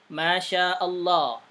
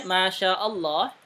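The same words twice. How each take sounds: First: Slow Masya Allah with long vowels. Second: Masya Allah, long vowel kept to two beats; two-beat length. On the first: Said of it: "harusnya bacanya panjang". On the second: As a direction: Masya Allah, slow but not overlong. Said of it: "nggak usah panjang-panjang". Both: Shown as a demonstration.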